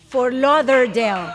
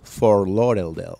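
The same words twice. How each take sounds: First: "Fort Lauderdale" slowly, as "for lo-der-del"; slow, clear "Fort Lauderdale" with D in "lauder"; correct pronunciation. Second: "Fort Lauderdale" low and slow, as "for lorel-del"; slow "Fort Lauderdale" with L replacing D; missing the D. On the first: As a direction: say "Fort Lauderdale" carefully, sounding the middle D. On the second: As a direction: say "Fort Lauderdale" deep, without its middle D. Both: Shown as a demonstration. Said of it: "me faltó una D al final".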